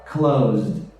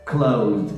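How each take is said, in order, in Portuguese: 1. A terminação é um som curto de z-d. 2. A terminação é um som curto de z-d.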